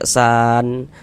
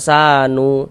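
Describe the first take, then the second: First: The word ends on a silent n. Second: The word ends with an added u vowel. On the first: The speaker calls it right. "kalau berwakaf di huruf nun kita baca san" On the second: The speaker calls it wrong. "Jangan dibaca sanu"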